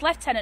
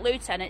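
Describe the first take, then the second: First: The word has the English pronunciation. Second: The word has a non-English pronunciation. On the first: The speaker calls it right. "It's lieutenant in English" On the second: The speaker calls it wrong. "not lieutenant"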